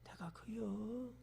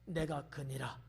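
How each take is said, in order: First: It is said timidly and hesitantly. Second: It is said boldly and confidently.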